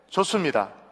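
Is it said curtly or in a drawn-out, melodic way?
curtly. It is said short and curt, sounding combative.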